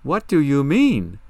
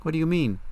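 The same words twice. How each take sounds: First: Loud, slow, higher-pitched disbelief; stunned, forceful repeat of a question; incredulous demand. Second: Higher-pitched, lightly puzzled question; mild surprise, pitched up. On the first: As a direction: demand it with each word drawn out. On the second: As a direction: ask it at normal volume, a bit taken aback. First, puzzled asking of question. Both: Acted.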